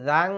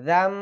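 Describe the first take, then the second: First: The syllable ends in an ng sound. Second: The syllable ends in an m sound. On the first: The speaker calls it wrong. "এখানে অনেকে জাং বলেন" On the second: The speaker calls it right. "এখানে বলবেন জাম"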